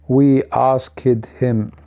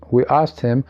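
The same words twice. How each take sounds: First: The t and h sounds are fully pronounced. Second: The t and h sounds are dropped. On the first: The speaker calls it wrong. "You do not say we asked him. This is not English" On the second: The speaker calls it right. "T here will be assimilated... the H will be elated also from elision"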